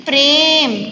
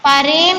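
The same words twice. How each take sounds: First: प्रेम as one syllable, prem; प्रेम with a joined pr cluster; correct pronunciation. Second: प्रेम broken into pa-rem; two-syllable प्रेम, pa-rem; wrong pronunciation. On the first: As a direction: run प straight into र in प्रेम. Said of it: "आधा उच्चारित होने पर". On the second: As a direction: misread प्रेम with a vowel between प and र. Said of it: "नहीं". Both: Shown as a demonstration.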